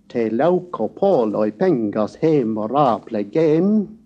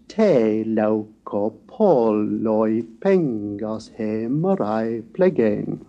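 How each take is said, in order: First: All syllables follow an even short-long stress beat. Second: The early syllables are held long and solemn. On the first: The speaker calls it wrong. "as if there were no difference between spondes and iambics" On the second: The speaker calls it right. "where the early spondes deliberately give solemnity"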